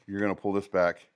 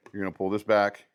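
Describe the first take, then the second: No difference in how they are said.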